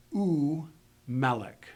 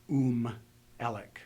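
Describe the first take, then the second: First: U melech, slow, the u as its own syllable before melech; separate u. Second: Um elek, the u glued onto the word as one; wrong joined u. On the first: Teacher shows students the separate u, slowly. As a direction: say u, then melech, with a clear break. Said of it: "Pronounce the u by itself". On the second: Teacher shows the mistake to avoid, joined u. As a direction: run u into melech the wrong way. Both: Shown as a demonstration.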